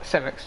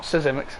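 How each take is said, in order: First: Simics in two syllables, SIM-iks; corrected pronunciation. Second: Sisimics in three syllables, suh-ZIM-iks; mistaken pronunciation. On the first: Commentator correcting himself on a driver's name, Simics said without the Z. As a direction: say Simics with S first and no Z. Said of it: "not pronounce the Z". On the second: Commentator rejecting his earlier guess, Sisimics said in three syllables. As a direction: say Sisimics with an extra syllable before a Z sound. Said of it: "Not Sisimics". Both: Shown as a demonstration.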